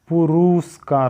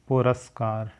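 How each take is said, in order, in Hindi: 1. इसमें 'pur' के बाद 'u' स्वर के साथ उच्चारण होता है। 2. इसमें 'pur' के बाद 'a' स्वर के साथ उच्चारण होता है। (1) "पुरुस्कार नहीं होता है" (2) "पुरस्कार होता है ये"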